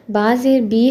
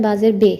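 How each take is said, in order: First: बा ज़ेर बी ending in "ee"; Arabic pronunciation. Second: बा ज़ेर बे ending in "e"; Persian pronunciation. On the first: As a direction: say the last बी as bee. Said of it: "Arabic में पढ़ते हैं". (बा ज़ेर बी, "ई" की आवाज़) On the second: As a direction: say the last बे as bay. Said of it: "मगर फ़ारसी में होता है". (बा ज़ेर बे, "ए" की आवाज़) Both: Shown as a demonstration.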